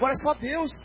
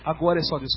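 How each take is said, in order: First: It is said in a desperate, hopeless tone. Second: It is said in a calm, confident tone. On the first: Nothing more can be done, so all hope is lost. The speaker calls it wrong. "Se desesperam" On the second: The matter is trusted to an all-powerful God. The speaker calls it right. "Só que ela não fala assim"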